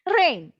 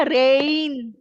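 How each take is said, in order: First: Said in the usual way. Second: RAIN stretched long, as if two vowels, ray-in; drawn-out rain. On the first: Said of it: "Rain is a one syllabic". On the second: Shown as a demonstration. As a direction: pull the vowels of rain apart. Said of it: "so we don't say na".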